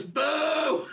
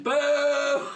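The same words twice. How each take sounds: First: High-pitched heckler's boo. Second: High, loud crowd boo; louder booing. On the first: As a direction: imitate one man starting a boo. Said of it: "He starts to boo Ryan". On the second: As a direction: imitate a whole queue booing at full volume. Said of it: "it gets louder each time". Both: Retold or imitated.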